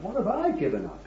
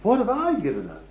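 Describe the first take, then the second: First: Higher, fast, whiny complaint; mock self-pity. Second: Higher, fast, indignant outburst; hammed-up protest about sacrifices; mock indignation. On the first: Preacher mimicking a self-pitying disciple, higher and fast. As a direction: play the martyr, a touch mocking. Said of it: "he could have said for you". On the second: Preacher mocking a boastful disciple, higher and fast. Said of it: "he didn't talk like that".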